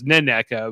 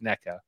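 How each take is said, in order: First: The name begins with an extra N sound. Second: The name begins without an extra N sound. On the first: The speaker calls it wrong. "who I thought was Neneca" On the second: The speaker calls it right. "it turns out I think it's just NECA"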